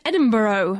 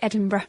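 First: It is said with an American accent. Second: It is said with a British accent.

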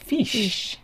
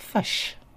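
First: The vowel is a front 'i' sound. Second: The vowel is a central 'uh' sound. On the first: This is how Australians say it. "in Australia sounds fish" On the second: This is how New Zealanders say it. "in New Zealand sounds like fush"

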